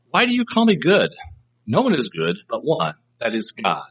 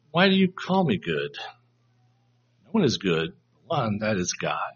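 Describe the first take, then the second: First: Rebuke. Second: Gentle, thought-provoking question. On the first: Jesus answering the rich young ruler, as a rebuke. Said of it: "a rebuke". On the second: Jesus prompting the ruler to think, gently questioning. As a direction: ask it quietly to make him think, no reproof. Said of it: "it's not a rebuke anymore". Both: Shown as a demonstration.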